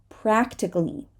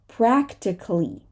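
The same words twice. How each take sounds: No difference in how they are said.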